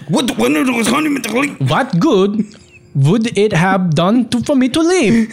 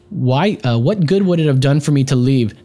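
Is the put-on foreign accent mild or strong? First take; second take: strong; mild. First: It is said in a strong, Italian-sounding foreign accent. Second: It is said with little or no foreign accent. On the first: "It got Italian there" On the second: "You should have done that in a stronger German accent"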